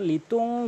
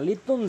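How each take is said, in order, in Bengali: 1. শেষের ন নাক দিয়ে দীর্ঘ করে ধরা হয়। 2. শেষের ন হ্রস্ব, নাকে আটকে রাখা নেই। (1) "লিতুং গুন্না করবেন" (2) "লিতুন জিরো বলবেন না"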